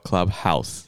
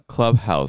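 First: The stress is on the second syllable. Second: The stress is on the first syllable.

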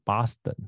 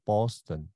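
First: It is said in local Boston accent. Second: It is said in general American pronunciation.

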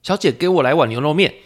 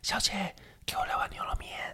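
First: The line is shouted loudly. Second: The line is whispered softly.

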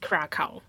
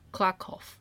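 First: The name is read with English pronunciation. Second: The name is read with Polish pronunciation. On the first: The speaker calls it wrong. "因为你看它的英文单字，你会以为是Krakow" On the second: The speaker calls it right. "用那个Google Translate，然后它念出来是。"

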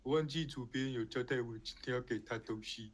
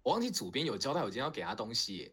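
First: It is said slowly and awkwardly. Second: It is said in a lively, brisk way.

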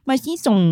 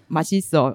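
First: It is said lisping, nasal and babyish. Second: It is said plainly with clear consonants. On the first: The speaker is acting cute and coy. "用口齿不清的方式去表达撒娇" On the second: An ordinary way to say it tastes good. "我们平常不是说马西手"

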